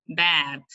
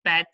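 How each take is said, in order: First: "bat" with an open a, as in "cat"; minimal pair. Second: "Bat" with a closer e, like "bet"; minimal pair. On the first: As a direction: open the vowel of "bat" wide. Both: Shown as a demonstration. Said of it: "So they are different words".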